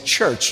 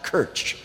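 First: It begins with a soft ch sound. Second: It begins with a hard k sound. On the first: The speaker calls it right. "Sometimes you do use soft, we say church" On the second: The speaker calls it wrong. "not kirch"

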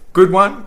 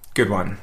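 First: It is said warmly, with genuine approval. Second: It is said mockingly, with ironic approval. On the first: The thing really is good. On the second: The thing was actually foolish. "Or you could say it sarcastically"

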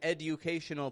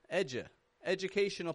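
First: The D and U are pronounced separately. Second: The D and U blend into a J sound. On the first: The speaker calls it wrong. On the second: The speaker calls it right. "this is an educational"

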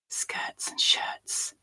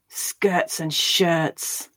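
First: It is spoken in a whisper. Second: It is spoken with anger. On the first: "we'll whisper it" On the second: "Now angrily"

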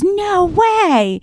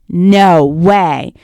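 First: It sounds delighted and excited. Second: It sounds dismayed and upset. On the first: Something good has happened. "When she gets a new car, she goes" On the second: Something bad has happened. "the guy who gets his car robbed says"

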